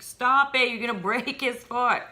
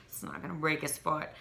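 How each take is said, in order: First: Higher-pitched mock panic; freaking-out husband. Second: Said in the usual way. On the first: Retelling husband's worry over the baby's foot in the slipper, mock freak-out. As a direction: imitate a husband urgently telling you to stop. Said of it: "freaking out".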